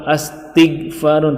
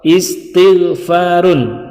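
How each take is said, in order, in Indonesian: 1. Kata ini diawali dengan vokal a. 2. Kata ini diawali dengan vokal i. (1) "atau astighfarun" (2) "tapi istighfarun"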